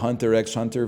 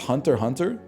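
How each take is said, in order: First: The letter X is spoken between the words. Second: No letter is spoken between the words. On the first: "I've been calling it Hunter x Hunter for years" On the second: "It's pronounced Hunter Hunter?"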